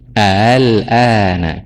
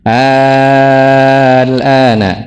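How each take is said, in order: First: The hamzah is softened, between a glottal stop and vowel. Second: The hamzah becomes a long vowel held six counts. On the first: "si hamzahnya bukan diganti alif, tapi diganti dengan tashil" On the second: "Itu ada diganti alif dulu, bertemu sukun, panjangnya jadi wajib enam"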